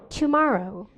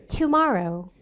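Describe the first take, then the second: Both takes have the same delivery.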